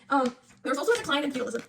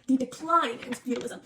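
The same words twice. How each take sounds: First: Said in the usual way. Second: Slow, deliberate "The decline in feudalism"; stressing decline. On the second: Shown as a demonstration. Student reviewing notes, slow, pointed stress on "decline". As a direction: lean on "decline" and spell it out slowly. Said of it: "Not the end of feudalism".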